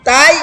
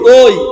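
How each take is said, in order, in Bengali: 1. স্বরটি একটি খোলা 'ai' ধ্বনি। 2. স্বরটি একটি গোলাকার 'oi' ধ্বনি। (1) "তাই না তই" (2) "কি বলতে হবে?"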